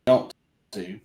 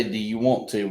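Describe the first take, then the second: First: "Yumped to" said as one run-together word, yump-tuh; Southern slurred contraction. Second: Said in the usual way. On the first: Shown as a demonstration. Explaining Southern speech to a friend, "Yumped to" run together. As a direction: mash "Yumped to" into a single Southern sound. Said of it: "We say". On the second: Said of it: "'cause we don't say".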